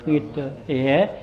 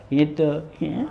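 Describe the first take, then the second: Both takes have the same delivery.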